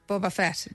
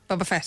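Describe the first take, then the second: First: The name is said at a slower pace. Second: The name is said at a faster pace. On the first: The speaker calls it wrong. "Kind of quicker than that" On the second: The speaker calls it right. "Yes, that one"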